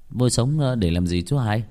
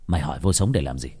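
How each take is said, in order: First: Said in the usual way. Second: Low, fast, menacing question; intimidating snap. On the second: A narrator's reading. Cousin challenging Nam over his question, low intimidating snap. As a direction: throw the question back as a threat. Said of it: "nói bằng giọng nạt nộ".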